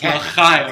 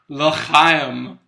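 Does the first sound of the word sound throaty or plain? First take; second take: throaty; plain. First: The ch is said as a harsh throat sound. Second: The ch is said as a plain, soft sound. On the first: The speaker calls it right. "It's a phlegm-based Chaim" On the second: The speaker calls it wrong. "Yeah, say it right"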